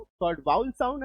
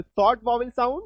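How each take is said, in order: First: "वाउल" as one gliding 'vowl'; correct pronunciation. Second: "वॉवेल" in two syllables, 'vaw-vel'; Indian-English 'vaw-vel' for "वॉवेल"; Indian pronunciation. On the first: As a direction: say "वाउल" with an ow glide, no second v. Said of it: "correct इसका उच्चारण होता है वाउल होता है". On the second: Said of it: "Indian pronunciation use करते हैं तो वॉवेल". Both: Shown as a demonstration.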